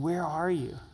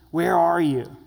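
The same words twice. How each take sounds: First: It is said in a sad, tender tone. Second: It is said in a harsh, angry tone. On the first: The one asking longs to restore the relationship. The speaker calls it right. "the heart of a broken father saying" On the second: The one asking is about to punish. The speaker calls it wrong. "Do you hear the tone of an angry cop, an angry school teacher?"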